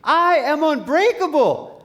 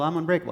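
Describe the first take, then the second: First: It is yelled loudly with full conviction. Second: It is said quietly and without conviction. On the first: The speaker fully believes it. The speaker calls it right. "louder, [name]" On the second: The speaker does not really believe it. The speaker calls it wrong. "No, no, [name]. I want you to say it out loud like you mean it"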